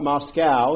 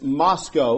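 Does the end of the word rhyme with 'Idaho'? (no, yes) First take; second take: no; yes. First: The word ends without a sound like 'Idaho'. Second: The word ends with a sound like 'Idaho'. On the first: This is how outsiders say the town name. The speaker calls it wrong. "not Moscow" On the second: This is how local people say the town name. The speaker calls it right. "it's like Idaho, it's Moscow"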